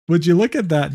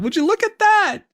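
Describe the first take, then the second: First: Said in the usual way. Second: Squeaky sarcastic. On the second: Acted.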